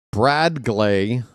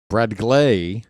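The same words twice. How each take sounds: First: "Brad Glay" with BRAD drawn out and weighted; stress on BRAD. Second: "Brad Glay" with GLAY weighted; stress on GLAY. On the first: Announcer comparing syllable stresses, weight on "Brad". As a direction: lean on the first syllable, "Brad". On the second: Announcer comparing syllable stresses, punch on "Glay". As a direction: shift the punch onto the second syllable, "Glay". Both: Shown as a demonstration. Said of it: "that means that's the stress".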